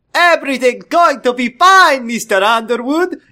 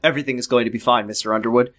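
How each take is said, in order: First: Put-on high, loud Doctor Nick accent; hammed-up Doctor Nick accent, cartoon-doctor cheer; very funny accent. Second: Said in the usual way. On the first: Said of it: "in a very funny accent".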